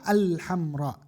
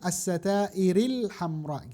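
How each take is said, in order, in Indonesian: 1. Kata diucapkan sendiri dengan vokal awalnya. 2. Kata disambung, vokal awalnya dihilangkan. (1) "kalau kita pisah misalnya baca sendiri" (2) "kalau sambung"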